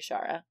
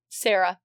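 First: The name begins with an sh sound. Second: The name begins with a plain s sound. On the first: The speaker calls it right. "it's very clearly Shara" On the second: The speaker calls it wrong. "you had been pronouncing it wrong"

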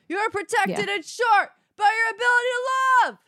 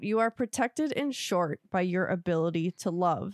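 First: The line is shouted loudly. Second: The line is read at a normal volume.

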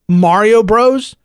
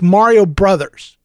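First: The second word is the short form 'bros'. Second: The second word is the full form 'brothers'. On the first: The speaker calls it wrong. "It's not Mario Bros" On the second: The speaker calls it right. "It's Mario Brothers"

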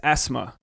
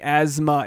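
First: The middle consonant is an S sound. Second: The middle consonant is a Z sound. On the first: The speaker calls it right. "She said pronounce it with an S, not a Z" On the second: The speaker calls it wrong. "because I was saying asthma"

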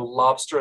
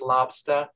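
First: The r sound is clearly pronounced. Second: The r sound is dropped, like ah.

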